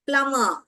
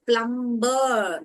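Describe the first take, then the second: First: No b sound is heard after the m. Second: A b sound is heard after the m. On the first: The speaker calls it right. "பி வந்து silent" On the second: The speaker calls it wrong. "Actually அது பிளம்பர்னு சொல்லக்கூடாது"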